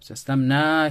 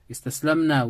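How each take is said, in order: First: The final syllable is stretched out long. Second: The final syllable is short, not stretched. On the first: We gave up. "make sure you stretch here the noon" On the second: A group of women gave up. "They, the woman, gave up"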